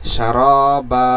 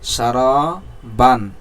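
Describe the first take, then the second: First: The word ends with a lengthened vowel. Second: The word ends with an n sound. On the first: "আমরা থামলে এই দুই জবর পড়া যাবে না" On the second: "সারা বা আলিফ দুই জবর বান"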